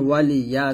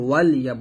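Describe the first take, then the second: First: The l is followed by a short i vowel. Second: The l is closed with no vowel after it. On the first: The speaker calls it right. "এখানে ওয়ালি ইয়া আছে" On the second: The speaker calls it wrong. "ওয়ালি না বলে ওয়াল ইয়া বলছেন, এরকম ভুল করা যাবে না"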